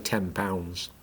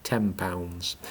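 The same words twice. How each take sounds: First: The end of ten blends into pounds. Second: The end of ten blends into pounds.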